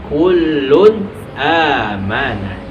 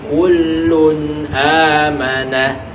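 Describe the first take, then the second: Both takes have the same delivery.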